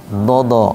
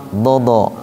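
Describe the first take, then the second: The two takes are said the same way.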